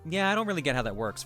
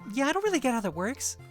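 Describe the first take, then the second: First: The pitch does not dip at the end. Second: The pitch dips down at the end. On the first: It sounds like a feminine voice. "most feminine tones like don't dip down at the end of sentences" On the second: It sounds like a masculine voice.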